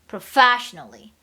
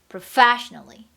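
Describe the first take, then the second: No difference in how they are said.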